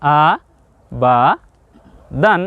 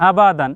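First: "আ ... বা ... দান" with a pause after each syllable; split-up model reading of "আ বা দান". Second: "আবাদান" said in one go; no pauses inside "আবাদান"; joined-up word. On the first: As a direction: read "আ", "বা", "দান" separately for learners. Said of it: "দে আপনি কি বললেন?". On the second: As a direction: say "আবাদান" as a single connected word. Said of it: "উচ্চারণ কি বললেন?". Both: Shown as a demonstration.

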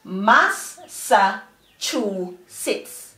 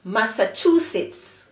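First: "mas, sa, chu, sits" as four separate beats; slowly broken-up teacher's "mas, sa, chu, sits"; syllable by syllable. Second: "Massachusetts" as one joined word; quicker, connected "Massachusetts"; blended together. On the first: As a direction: pause after each of "mas, sa, chu, sits". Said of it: "the four syllables together are". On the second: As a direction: run "Massachusetts" together without pauses. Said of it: "Blend them quickly together". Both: Shown as a demonstration.

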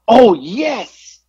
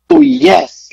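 First: High, bright burst of eager agreement; waitress gushing her approval; emphatic "oh, yes". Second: Much higher and louder gushing yes; emphatic "oh, yes". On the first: Waitress answering the order with an eager cheer. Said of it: "Just like that". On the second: Waitress gushing over the order with a loud, high yes. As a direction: squeal it like the best choice ever. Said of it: "Like, it was emphatic". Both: Retold or imitated.

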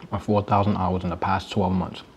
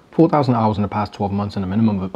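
First: Talking with a mouthful of food; chewing while reading out the numbers; mouth full. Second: Said in the usual way. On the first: Real, not acted. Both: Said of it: "talk with my mouth full".

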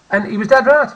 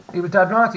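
First: "dead right" punched hard and loud; emphatic, louder. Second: Said in the usual way. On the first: Real, not acted. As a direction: lean hard on "dead right" to make the point.

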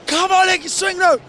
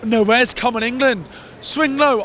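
First: High-pitched re-enacted fan chant; mock yell urging the crowd to sing; imitated shouting. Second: Imitated feeble fans. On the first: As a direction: cry it out high, as from the stands.

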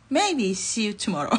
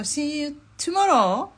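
First: Slow, amused correction falling at the end; drawn-out tentative farewell breaking into laughter; laughing hedge. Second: High, loud, long-drawn farewell rising at the end; confident drawn-out send-off, pitched high; cheery sign-off. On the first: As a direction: take back the promise with a laugh. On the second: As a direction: sing out the goodbye slowly, lifting the last word. Cheery sign-off, then hedged retake. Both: Real, not acted.

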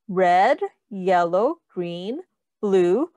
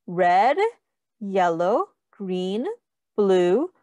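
The two takes are said the same way.

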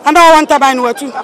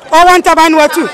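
First: Scornful laugh through fast words; laughing scornfully. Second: Said in the usual way. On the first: Real, not acted. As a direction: laugh at the absurd idea, quickly. Mocking remark with laugh.

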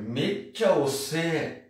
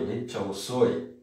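First: "Mecha ose" drawn out slowly, the end flattened to E; slow "Mecha ose" in slangy young style; casual youthful form. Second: "mecha osoi" said slowly with a full OI ending; careful "mecha osoi", ending OI; standard form. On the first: Teacher slowly models slangy "Mecha ose" for students. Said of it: "Que na verdade é osoi". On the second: Teacher gives the proper form "mecha osoi" to the class. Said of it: "Que na verdade é". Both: Shown as a demonstration.

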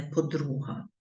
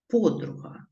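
First: "подруга" stressed in the middle, po-DRU-ha; wrong stress on middle syllable. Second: "Подруга" stressed at the start, PO-dru-ha; correct stress on first syllable. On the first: Teacher citing the mistake to avoid, middle-syllable stress on "подруга". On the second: Teacher showing pupils the correct form, first-syllable stress on "Подруга". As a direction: hit the opening PO of "Подруга". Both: Shown as a demonstration. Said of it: "а не подруга".

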